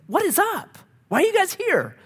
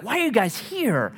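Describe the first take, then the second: First: Very high, exaggerated bafflement; baffled. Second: Mildly puzzled question, pitched up; retold bafflement, a higher voice. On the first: Counselor pressing a seemingly perfect couple, comically baffled. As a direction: squeak it out in mock disbelief. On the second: Counselor to a seemingly fine couple, puzzled.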